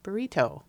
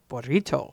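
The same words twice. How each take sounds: First: "Burrito" said lightly, only slightly Spanish; half-hearted Spanish pronunciation. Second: "Burrito" overpronounced with showy Spanish rolled r. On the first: Shown as a demonstration. Showing how I would be beside the overdone version, "Burrito" with a restrained accent. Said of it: "like, how I would be". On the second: Retold or imitated. Imitating the Saturday Night Live sketch, "Burrito" in overdone Spanish pronunciation. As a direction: exaggerate the Spanish sounds in "Burrito". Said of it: "overpronounces Spanish words".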